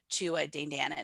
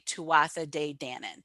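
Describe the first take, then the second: First: The th sound in the first word is dropped. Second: The th sound in the first word is pronounced. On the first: "if you were to pronounce it in Gaelic, ... They don't pronounce the th" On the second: "when I pronounce it like phonetically"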